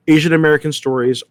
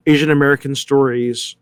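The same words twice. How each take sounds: The two takes are said the same way.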